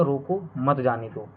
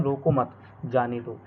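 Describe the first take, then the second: First: रोको, then मत जाने दो run together; pause after रोको. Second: रोको मत joined, clear break, then जाने दो; pause after मत. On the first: (रोको के बाद विराम, मत जाने दो एक साथ) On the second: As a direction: hold a pause between मत and जाने दो. (रोको मत एक साथ, फिर विराम, फिर जाने दो) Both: Shown as a demonstration. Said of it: "comma को हटाने पर ही पूरे वाक्य का".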